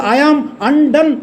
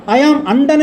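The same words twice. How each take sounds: First: Slow emphasis. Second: Said in the usual way. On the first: Shown as a demonstration. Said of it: "అనే మాట వాడతాడు". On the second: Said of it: "అనే మాటకు అర్థం ఏంటో తెలుసా?".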